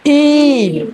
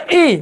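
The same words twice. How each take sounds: First: ई drawn out; long i. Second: ई said as a brief vowel; short i. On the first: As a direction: take time over a long ई. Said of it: "मोठी ई म्हणजे थोडा वेळ लागते". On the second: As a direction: keep ई very short. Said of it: "लहान आहे फक्त ई". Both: Shown as a demonstration.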